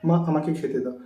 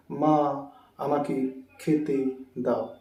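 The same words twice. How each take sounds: First: Said in the usual way. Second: Slow, stilted, pausing between words; unnaturally word by word. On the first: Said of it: "আমরা কীরকম বলি?". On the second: Shown as a demonstration. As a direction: pull each word apart. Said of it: "এরকম বলি না।". (থেমে থেমে, ধীরে বলা)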